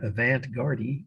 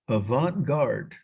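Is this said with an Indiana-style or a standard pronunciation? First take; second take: Indiana-style; standard. First: It is said with an Indiana-style pronunciation. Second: It is said with a standard pronunciation.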